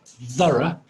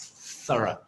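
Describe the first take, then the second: First: The opening th sound is voiced. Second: The opening th sound is unvoiced. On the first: The speaker calls it wrong. "it's not voiced. It's not. It's not thorough" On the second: The speaker calls it right. "It's unvoiced"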